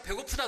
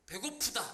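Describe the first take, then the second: First: Glad "hungry". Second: Said in the usual way. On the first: Shown as a demonstration. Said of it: "어느 날 제가". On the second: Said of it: "이렇게 느껴지는 적이 없어요".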